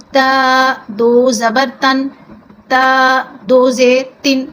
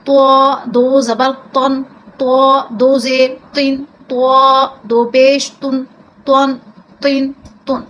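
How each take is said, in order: First: تا said thin and light, slowly spelled out. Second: تو said full and heavy, slow and louder; heavy toe. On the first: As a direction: keep the تا in تن light and unemphasised. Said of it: "یہ تا باریک ہوتا ہے". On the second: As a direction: give the تن a full, heavy mouth. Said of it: "اس کو ہم پر کر کے پڑھتے ہیں". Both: Shown as a demonstration.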